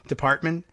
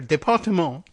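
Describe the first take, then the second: First: The word is pronounced with English sounds. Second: The word is pronounced with French sounds.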